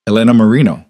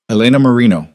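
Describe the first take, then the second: First: Slow savoring repeat. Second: Said in the usual way. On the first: Acted. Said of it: "He repeated it slowly, tasting each syllable". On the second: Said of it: "He repeated it slowly".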